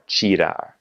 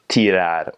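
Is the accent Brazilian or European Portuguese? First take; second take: Brazilian; European. First: It is said with a Brazilian Portuguese accent. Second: It is said with a European Portuguese accent.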